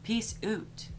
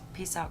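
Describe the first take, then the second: First: It is said in a put-on Canadian accent. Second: It is said in the speaker's plain accent.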